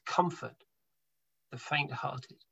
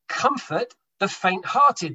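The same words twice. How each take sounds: First: Hushed and tender, much softer; a soft, comforting repeat of the verse. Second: Said in the usual way. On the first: Shown as a demonstration. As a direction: ease the words out gently to someone hurting. Repeats verse gently to listeners.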